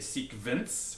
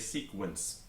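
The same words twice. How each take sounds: First: The consonant after the k is not a w sound. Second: The consonant after the k is a w sound. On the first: The speaker calls it wrong. "We don't say sequence" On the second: The speaker calls it right. "giving us sequence with a W"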